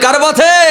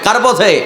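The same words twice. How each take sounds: First: The question is asked noticeably louder. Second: The question is asked at normal volume.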